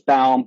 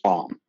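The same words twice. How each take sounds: First: The name is said with a German pronunciation. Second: The name is said with an American pronunciation. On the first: "the German pronunciation is" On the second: "The American is"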